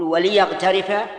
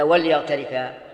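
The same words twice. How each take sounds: First: Slow "وليغترفا" as wa-li-yaghtarifa; lam with kasra. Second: "وليغترفا" as wal-yaghtarifa; vowelless lam. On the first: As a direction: offer the option with an i after l in "وليغترفا". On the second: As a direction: offer the option with no i after l in "وليغترفا". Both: Shown as a demonstration. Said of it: "ولا".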